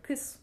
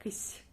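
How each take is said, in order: First: "kiss" ending on a plain hard s; hard final s. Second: "kiss" ending on a softened, palatal s with an ee colour; soft sign. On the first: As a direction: finish "kiss" with an unsoftened s. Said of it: "it sounds like that". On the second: Teacher showing the word with soft sign, softened s. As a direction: soften the final s of "kiss" toward "sy". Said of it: "If we put the soft sign in the end". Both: Shown as a demonstration.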